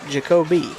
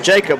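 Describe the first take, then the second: First: The name ends with a final vowel sound. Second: The name ends without a final vowel sound. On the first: The speaker calls it right. "You got to pronounce the E" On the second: The speaker calls it wrong. "Or Jacob Hart if you live in McCampton, apparently"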